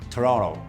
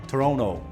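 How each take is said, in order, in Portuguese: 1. O segundo T é omitido. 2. O segundo T é omitido.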